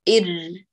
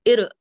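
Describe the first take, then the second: First: The r sound is held briefly and flows. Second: The r sound is cut off abruptly. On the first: The speaker calls it right. "تأني عليه شيئا يسيرا، اسمحي له بالجريان الجزئي" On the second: The speaker calls it wrong. "ما تقول طير إر فتقطعي"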